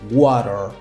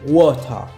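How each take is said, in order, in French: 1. Il est prononcé avec un accent américain. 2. Il est prononcé avec un accent britannique. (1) "en anglais américain, beaucoup de personnes disent" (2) "En anglais britannique, on peut entendre"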